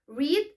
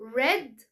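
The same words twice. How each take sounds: First: It is said as the present-tense form. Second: It is said as the past-tense form. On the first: It is the present-tense form. "read read بس مع اختلاف النطق" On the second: It is the past-tense form. "بس مع اختلاف النطق"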